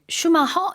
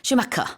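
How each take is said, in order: First: The name is pronounced the Korean way. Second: The name is pronounced the English way. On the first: "우리말로는 이제 슈마허 이렇게 하나 봐요" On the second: "영어에서는 슈마카 이렇게 하죠"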